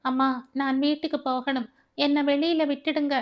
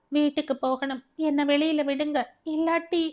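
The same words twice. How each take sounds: First: Higher, frightened begging to go home; a scared girl pleading, close to tears; tearful frightened plea. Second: Higher and rising, desperate begging; frantic plea. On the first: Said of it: "அழுகையும் திகிலுமாக கேட்டாள்". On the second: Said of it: "கூச்சலிட்ட". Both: A narrator's reading.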